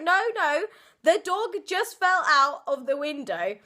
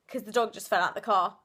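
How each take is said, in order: First: No, no, higher and louder, pressing the point; insistent retelling. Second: Offhand casual. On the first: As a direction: insist the dog really fell, a bit raised. Insisting after not being believed. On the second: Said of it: "you said it so casually". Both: Retold or imitated.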